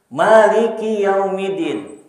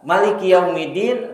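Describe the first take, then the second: First: The first vowel of Maliki is drawn out long. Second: The first vowel of Maliki is kept short. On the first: It means king. "dibaca panjang artinya raja" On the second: It means owner. "riwayat yang lain artinya pemilik"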